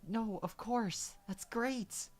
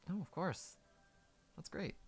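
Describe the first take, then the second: First: It is said with exaggerated, over-the-top energy. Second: It is said in a calm, natural way.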